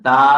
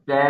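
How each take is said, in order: First: The vowel is wide open and spread out. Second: The vowel is more closed, with a relaxed mouth. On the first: The speaker calls it wrong. "তা আওয়াজ ছড়িয়ে গেছে, ছড়িয়ে গেছে, মুখ খুলে গেছে" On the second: The speaker calls it right. "মুখ স্বাভাবিক থাকবে"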